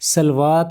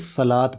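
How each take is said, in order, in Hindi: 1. आख़िरी अक्षर से पहले 'w' की आवाज़ सुनाई देती है। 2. आख़िरी अक्षर से पहले 'w' की आवाज़ नहीं सुनाई देती। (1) "पढ़ा सलवात नहीं जाएगा" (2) "बल्कि सलात पढ़ा जाएगा"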